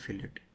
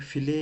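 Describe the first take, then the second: First: The word ends with a clear t sound. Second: The word ends without a t sound. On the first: "लेकिन हम फिलेट इसे बोलेंगे" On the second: "वैसे टी silent होता है, फिले होता है ये"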